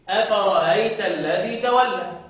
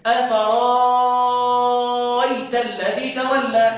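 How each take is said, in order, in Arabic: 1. تُسهَّل الهمزة فتصير صوتًا حلقيًا خفيفًا. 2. تتحول الهمزة إلى حرف مد طويل. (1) "هسهل الهمزه ده" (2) "ابدال الهمزه حرف مد"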